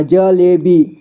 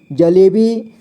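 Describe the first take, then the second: First: जलेबी slowly split as ज, ले, बी; syllable by syllable. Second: Said in the usual way. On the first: Shown as a demonstration. Teacher showing learners जलेबी, slowly sounded out. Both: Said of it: "इसे पढ़ेंगे".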